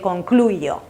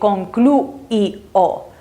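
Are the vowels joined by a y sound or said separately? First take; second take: joined; separately. First: The vowels are joined with a y sound. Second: The three vowels are pronounced one by one. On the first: The speaker calls it right. "it's faster to say" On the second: The speaker calls it wrong. "if you're trying to pronounce everything like it's written, you have to say"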